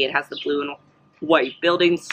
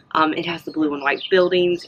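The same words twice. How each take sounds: First: Talking through hiccups. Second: Said in the usual way. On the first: Real, not acted. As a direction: hiccup breaks up "has" and "buildings". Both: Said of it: "I have the, the hiccups".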